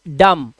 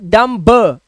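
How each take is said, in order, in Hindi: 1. अंतिम b ध्वनि silent रहती है। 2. अंतिम b ध्वनि बोली जाती है। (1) "इट्स डम" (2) "इट्स नॉट"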